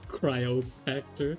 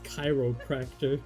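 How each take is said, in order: First: The first syllable sounds like 'cry'. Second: The first syllable sounds like 'kai'. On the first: The speaker calls it wrong. "you pronounced that absolutely horribly wrong" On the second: The speaker calls it right. "It's chiropractor"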